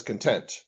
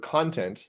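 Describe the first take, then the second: First: "content" stressed on the second syllable, con-TENT; misread content. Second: "content" stressed on the first syllable, KON-tent; noun content. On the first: Retold or imitated. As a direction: say "content" as in being satisfied. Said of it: "it read it as". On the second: Shown as a demonstration. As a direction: say "content" like the content of a book. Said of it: "trying to read the word".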